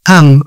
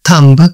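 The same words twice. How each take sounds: First: The final b sound is silent. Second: The final b sound is pronounced. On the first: The speaker calls it right. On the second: The speaker calls it wrong.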